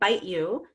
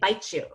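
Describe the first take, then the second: First: The t and y are said separately. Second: The t and y merge into a ch sound. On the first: "instead of saying bite you" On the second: "the T and the Y blend together to become a C H"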